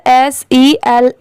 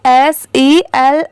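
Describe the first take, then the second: No difference in how they are said.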